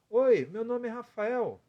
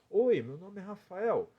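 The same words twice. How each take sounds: First: The voice is higher, placed in the head. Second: The voice is pushed forward with pursed lips.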